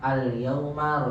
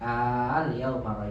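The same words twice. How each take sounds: First: The opening vowel is short. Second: The opening vowel is drawn out long. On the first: It is a plain statement. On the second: It asks a question.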